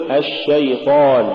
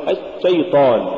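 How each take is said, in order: First: الشيطان with a continuous sh; ash-shaytan, flowing sh in الشيطان; soft flowing shin. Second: الشيطان with the sh cut short; stopped sh and a gap in الشيطان; choked-off shin. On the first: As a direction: let the sh run in الشيطان. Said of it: "قل". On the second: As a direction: block the first sh of الشيطان. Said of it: "ولا تقل". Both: Shown as a demonstration.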